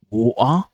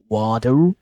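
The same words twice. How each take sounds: First: The middle t is a glottal stop. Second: The middle t sounds like a soft d. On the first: "Cockney accent, where the glottalization happens" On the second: "in American, you might probably hear water ... like they replace with the d sound"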